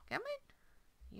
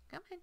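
First: High coaxing call. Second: Said in the usual way. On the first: Shown as a demonstration.

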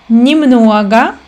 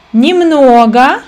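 No difference in how they are said.

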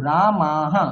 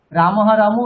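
First: রামাহা with the ma drawn to two beats; long vowel. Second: রামহা with a short clipped ma, louder; wrong pronunciation. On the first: Teacher showing the right long ā in রামাহা. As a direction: stretch the ā in রামাহা. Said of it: "দীর্ঘ বর্ণ, তার দু মাত্রা". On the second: Teacher loudly showing the wrong রামহা with short ma. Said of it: "রামহা নয় কিন্তু". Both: Shown as a demonstration.

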